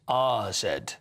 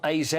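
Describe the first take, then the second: First: The first letter is said like 'ah'. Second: The first letter is said like 'ay'. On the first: The speaker calls it right. "It's R Z" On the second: The speaker calls it wrong. "It's not A Z Alkmaar"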